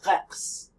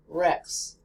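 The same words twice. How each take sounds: First: The R is a throaty French R. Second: The R is a smooth American-style R. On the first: "when you want to say the French R, as you speak French" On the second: "they pronounce the letter R like this"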